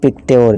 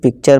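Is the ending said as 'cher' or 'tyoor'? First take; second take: tyoor; cher. First: The ending is said with a 'ty' sound. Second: The ending is said with a 'ch' sound. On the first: The speaker calls it wrong. "ना कि पिक्ट्योर" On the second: The speaker calls it right. "हम पिक्चर पढ़ेंगे"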